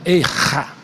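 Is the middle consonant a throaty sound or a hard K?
throaty. The middle consonant is a throaty, guttural sound. "eles pronunciam tudo com a garganta"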